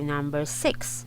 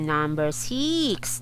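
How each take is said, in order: First: The vowel in 'six' is short, as in 'sit'. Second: The vowel in 'six' is long, as in 'seek'. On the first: The speaker calls it right. "You should you should use short E" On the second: The speaker calls it wrong. "You're not gonna say na"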